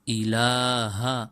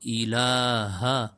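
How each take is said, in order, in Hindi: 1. शब्द के आख़िर में अंतिम 'ha' अक्षर है। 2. शब्द के आख़िर में अंतिम 'ha' अक्षर है।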